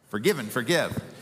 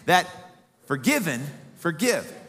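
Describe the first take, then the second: First: It is said quickly, run together. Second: It is said at a normal pace.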